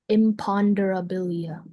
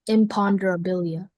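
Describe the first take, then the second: First: The word is said slowly, especially the middle. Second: The word is said at a normal speed.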